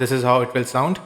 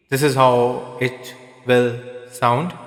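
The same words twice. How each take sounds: First: Half echo. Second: Slow, drawn out, drowned in heavy echo; full echo. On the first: Reviewer demoing the mic's echo at half, light echo. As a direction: voice with a moderate echo trail. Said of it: "if I increase the echo to about half". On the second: Reviewer demoing the mic's echo at full, heavy echo. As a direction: let every word ring in a big echo. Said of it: "And if I increase it completely". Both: Shown as a demonstration.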